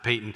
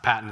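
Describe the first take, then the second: First: The first syllable sounds like 'pay'. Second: The first syllable sounds like 'pat'. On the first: The speaker calls it right. "it's Payton" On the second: The speaker calls it wrong. "It's not Patton"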